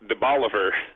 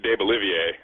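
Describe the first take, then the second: First: It is said with an Anglicized pronunciation. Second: It is said with a French pronunciation. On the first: The speaker calls it wrong. "everyone pronounces incorrectly" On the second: The speaker calls it right. "that should be de Bolivier"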